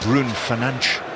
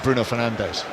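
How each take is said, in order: First: The name is said the native way. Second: The name is said in an anglicized way.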